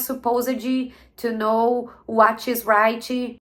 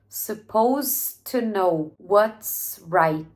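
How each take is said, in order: First: An extra i vowel follows the final consonants. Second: Words end cleanly on their final consonant sounds. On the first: The speaker calls it wrong. "Seria muito difícil que eu falasse assim, ó" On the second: The speaker calls it right. "Ela tem várias palavras que terminam com um som de consoante"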